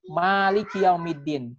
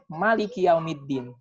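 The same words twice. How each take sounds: First: The first vowel of maliki is drawn out long. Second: The first vowel of maliki is kept short. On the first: The one who owns the Day of Judgment. "dibaca panjang" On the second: The one who rules the Day of Judgment. "tidak dibaca panjang, pendek"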